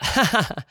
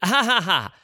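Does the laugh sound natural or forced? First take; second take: natural; forced. First: The laugh sounds spontaneous and natural. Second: The laugh sounds acted and forced.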